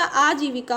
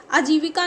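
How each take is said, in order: First: आजीविका with long opening 'aa'; correct pronunciation. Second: आजीविका with short first 'a', ajivika; wrong pronunciation. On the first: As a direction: hold the first vowel of आजीविका. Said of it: "होता है". (आजीविका में 'आ' लंबा बोलें) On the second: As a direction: clip the opening vowel of आजीविका to अ. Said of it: "नहीं होता". (आजीविका को 'अजीविका' जैसा बोलें) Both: Shown as a demonstration.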